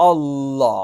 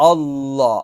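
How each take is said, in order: No difference in how they are said.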